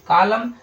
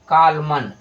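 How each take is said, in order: First: The word ends on m, with no n. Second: The word ends with an audible n sound. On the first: The speaker calls it right. "जो सही है वो सही है आपका कालम" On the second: The speaker calls it wrong. "जो गलत है वो है आपका कालमन"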